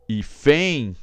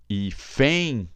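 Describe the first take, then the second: No difference in how they are said.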